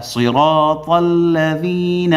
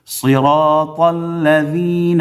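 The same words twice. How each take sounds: First: صراط with heavy ص and full ر; correct saad. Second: صراط with thin س sound; wrong sin in صراط. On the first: Teacher chants correct صراط with saad. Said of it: "صاد پڑھنا ہے". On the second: Teacher chants صراط the wrong way, with sin. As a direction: say صراط with a plain s. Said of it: "سین کو یہاں ادا کرنا غلط ہے". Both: Shown as a demonstration.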